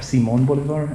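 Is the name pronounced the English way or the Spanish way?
Spanish. The name is said with Spanish pronunciation.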